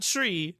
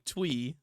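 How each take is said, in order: First: Said in the usual way. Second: "Twee" with a W in place of R. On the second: Shown as a demonstration. Correcting tree to the mocked version, "Twee" with a W. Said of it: "Not tree".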